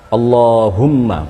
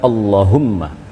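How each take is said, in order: First: The vowel after the l is held long. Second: The vowel after the l is cut short. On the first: The speaker calls it right. "Jadi Allah, Allahumma" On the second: The speaker calls it wrong. "bukan Allahumma. / janganlah memendekkan lafal Allah"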